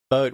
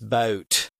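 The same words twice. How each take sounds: First: The vowel is plain and of ordinary length. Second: The vowel is long and drawn out.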